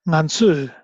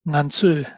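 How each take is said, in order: The two takes are said the same way.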